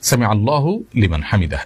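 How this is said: The 'hu' ends Allah before the break. The speaker calls it right. "এভাবে বলতে হবে"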